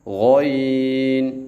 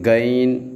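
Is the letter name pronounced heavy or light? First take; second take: heavy; light. First: The letter name sounds heavy and full. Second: The letter name sounds light and thin. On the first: The speaker calls it right. "गौइन को मोटा पढ़ना है" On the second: The speaker calls it wrong. "गैन ऐसे नहीं पढ़ना"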